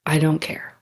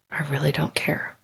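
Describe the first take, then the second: First: Said in the usual way. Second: Retold calm, dropped to a near-whisper; calm hushed near-whisper. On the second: Telling the upset nurse she doesn't care, hushed and calm. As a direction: play it down, barely voiced and unbothered. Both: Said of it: "I was super calm".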